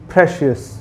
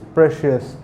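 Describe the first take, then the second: First: The opening p sound is strongly stressed. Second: The opening p sound is not stressed. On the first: The speaker calls it right. "you have to make a stress upon the p" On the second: The speaker calls it wrong. "Most of the people used to call it precious"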